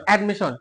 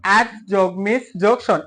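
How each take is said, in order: First: Said in the usual way. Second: "অ্যাড যোগ মিস যোগ শন" in three separate parts; split into syllables. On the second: Shown as a demonstration. Teacher showing a three-syllable word, split into syllables. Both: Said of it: "তিনটা করে অংশ আছে".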